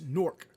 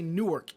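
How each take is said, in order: First: It is squeezed into one syllable like Nork. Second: It is said in full with two syllables. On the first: It is how locals say the name. The speaker calls it right. "it's Newark. Nork" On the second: It is how outsiders say the name. The speaker calls it wrong. "you don't say Newark"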